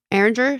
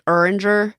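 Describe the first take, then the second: First: Said in the usual way. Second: Erringer with the first vowel squashed to "er"; mom's Philly pronunciation. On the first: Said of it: "my mom will sometimes be like". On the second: Retold or imitated. Imitating mom from Philly, Erringer as "ur-injer". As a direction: say Erringer as "ER-in-jer". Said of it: "she says".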